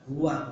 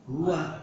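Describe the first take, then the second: No difference in how they are said.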